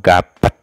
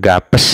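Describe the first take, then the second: First: The word ends with an added et. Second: The word ends with an added es. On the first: "atau gapet" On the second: "bukan gapes"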